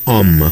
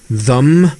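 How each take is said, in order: First: The th is dropped, leaving only um. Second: The vowel is weakened to a schwa. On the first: "좀 더 약화되면 엄 정도로" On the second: "슈아 발음으로 바뀌고"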